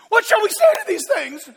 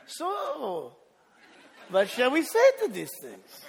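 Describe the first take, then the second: First: It sounds panicked and nervous. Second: It sounds confident, setting up an answer.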